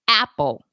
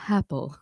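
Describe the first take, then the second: First: The vowel starts with a hard, exaggerated throat catch. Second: The vowel starts with an audible puff of breath. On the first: "overdo it ... That's too much" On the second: "adding an H"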